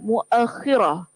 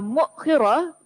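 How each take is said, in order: First: An a vowel follows the glottal stop; doubled kh. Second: No vowel follows the glottal stop after mu. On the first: "dengan memfathahkan huruf hamzah" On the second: "dengan mendamahkan huruf mim, mensukunkan hamzah dan mengkasrahkan huruf kha"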